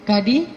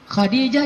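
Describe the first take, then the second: First: It begins with a plain k sound. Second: It begins with a rough throaty kh sound. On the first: "jadinya ka"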